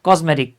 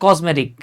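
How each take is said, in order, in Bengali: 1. মাঝের ব্যঞ্জনটি একটি গুঞ্জনধর্মী z ধ্বনি। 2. মাঝের ব্যঞ্জনটি একটি গুঞ্জনধর্মী z ধ্বনি।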